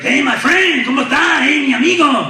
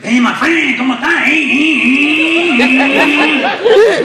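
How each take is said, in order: First: Upbeat, energetic friend. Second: High, loud greeting revving like an engine; motorcycle-like excitement. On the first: Upbeat friend greeting the comedian, exuberant and full of life. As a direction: greet a pal with bursting high-pitched energy. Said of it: "He's a really upbeat, energetic guy". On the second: Excited friend greeting the comedian, revving like a motorcycle. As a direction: get so excited the words turn into a motorcycle. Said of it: "he actually sounds like a motorcycle". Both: Retold or imitated.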